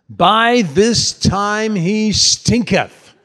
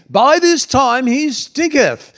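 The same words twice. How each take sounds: First: It is said in the speaker's ordinary accent. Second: It is said in a put-on English accent.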